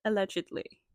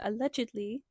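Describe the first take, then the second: First: Allegedly, stressed, a touch louder and falling; heavy emphasis on allegedly. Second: Allegedly with a knowing rise at the end; stress on allegedly. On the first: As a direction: land Allegedly heavily with a falling end. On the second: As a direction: lean into allegedly, letting it lift up. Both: Shown as a demonstration. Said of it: "Heavy emphasis on allegedly".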